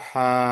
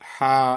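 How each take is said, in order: First: The word ends with a long a vowel. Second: The word ends with a long a vowel.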